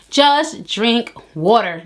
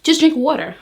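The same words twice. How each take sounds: First: "Just drink water." said very slowly, leaning on "just"; slow emphatic repeat. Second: Said in the usual way. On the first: Shown as a demonstration. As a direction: drag out "just" and each word, slow and firm.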